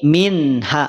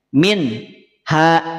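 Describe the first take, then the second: First: The word flows without a pause. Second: The word is split by a pause. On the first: The speaker calls it right. "sempurnakan satu harokat" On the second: The speaker calls it wrong. "juga tidak demikian"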